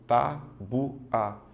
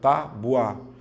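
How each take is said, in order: First: The word is split into three separate syllables. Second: The word is split into two syllables. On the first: The speaker calls it wrong. "você vai tentar fazer assim" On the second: The speaker calls it right. "duas sílabas"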